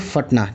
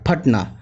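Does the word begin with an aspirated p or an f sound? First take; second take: f sound; aspirated p. First: It begins with an f sound. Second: It begins with a breathy p sound. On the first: The speaker calls it wrong. "ना कि फटना" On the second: The speaker calls it right. "जबकि फा होता है फटना"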